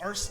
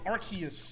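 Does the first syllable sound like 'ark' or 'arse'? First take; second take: arse; ark. First: The first syllable sounds like 'arse'. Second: The first syllable sounds like 'ark'. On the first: The speaker calls it wrong. "It's not Arce" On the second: The speaker calls it right. "Arc, like Noah's Ark"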